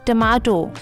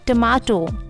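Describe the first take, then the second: The two takes are said the same way.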